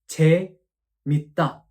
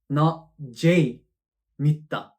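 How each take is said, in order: First: The first vowel is a plain, steady 'e'. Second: The first vowel glides like English 'ay'. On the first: The speaker calls it right. "we actually pronounce this vowel as E. So this should be pronounced as" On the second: The speaker calls it wrong.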